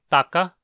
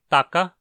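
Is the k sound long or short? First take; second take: short; short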